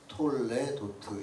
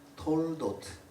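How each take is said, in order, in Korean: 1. 이 단어는 온전한 음절이 세 개예요. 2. 빠르게 말하면 가운데 음절이 빠져요. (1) "톨레도트 이렇게 해놨는데" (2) "빠르게 읽으면 저 발음대로 그대로 빠르게 읽으면 톨도트다"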